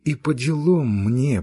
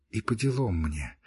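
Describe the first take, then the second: First: Louder, deliberate repeat of the phrase; sharper repeat. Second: Softer, sulky first take of the phrase; low sullen mutter. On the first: Girl to her friend, louder bitter repeat. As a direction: say it again, pressing it home. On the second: Girl to her friend, softer sulky mutter. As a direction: mumble it under your breath, hurt. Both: Acted. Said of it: "быстро заговорила Кити".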